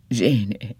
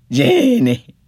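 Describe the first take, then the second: First: Said in the usual way. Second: Much higher and louder, desperate; crying out her name. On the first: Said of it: "repeated name, contrast". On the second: Acted. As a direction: call to her in sudden terror. Dying husband crying out.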